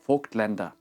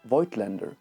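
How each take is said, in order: First: The name is given a German pronunciation. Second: The name is given an English pronunciation. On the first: The speaker calls it right. "the German for the proper pronunciation of Vogtländer" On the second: The speaker calls it wrong. "the English name Voigtlander, which is so fucking wrong"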